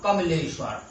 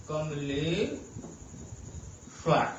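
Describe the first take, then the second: First: Said in the usual way. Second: Kamleshwar very slow and low, ले stretched long, pause before श्वर; drawn-out syllables. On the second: Shown as a demonstration. Teacher breaking Kamleshwar down to show the stressed vowel, drawn-out ले. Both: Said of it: "एक ही मात्रा पर बलाघात हो रहा है".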